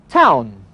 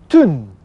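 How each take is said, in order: First: It is said the English way, 'town'. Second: It is said the Scottish way, 'tun'.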